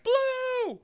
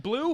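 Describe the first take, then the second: First: Very high-pitched imitated squeal; excited little kid. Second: Said in the usual way. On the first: Nephew thrilled at his blue juice, excited kid squeal. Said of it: "He was, like, all excited about it".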